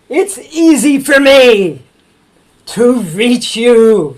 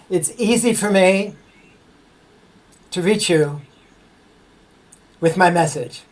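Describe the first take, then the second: First: It is shouted very loudly. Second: It is spoken at a normal volume.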